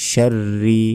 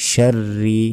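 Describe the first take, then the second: Both takes have the same delivery.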